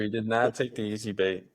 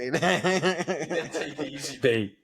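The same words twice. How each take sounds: First: "not" split off and punched, held a beat; stress on not. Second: Slow, laughing repeat, a little higher; laughing echo. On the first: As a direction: lean hard on "not" to make the point. Repeats with emphasis. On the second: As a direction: savor the line while chuckling. Echoes friend's line, laughing. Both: Real, not acted.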